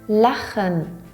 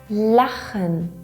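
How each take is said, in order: The two takes are said the same way.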